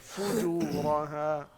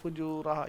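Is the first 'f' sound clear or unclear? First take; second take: clear; unclear. First: The first 'f' sound is crisp and clear. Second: The first 'f' sound is weak and unclear. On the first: The speaker calls it right. "फ़ा वाज़े करें" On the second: The speaker calls it wrong. "ये नहीं"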